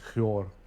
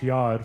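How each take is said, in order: First: It is said in the Syriac-influenced Shahriyar accent. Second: It is said in the speaker's own Lebanese accent.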